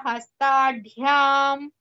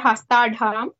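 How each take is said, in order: First: It is said with a y after dh. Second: It is said without a y after dh. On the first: The speaker calls it right. "it is hastadhyam" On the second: The speaker calls it wrong. "not hastadham"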